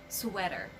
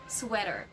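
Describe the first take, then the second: Both takes have the same delivery.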